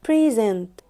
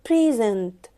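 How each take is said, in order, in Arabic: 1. النبر على المقطع الثاني. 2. النبر على المقطع الثاني.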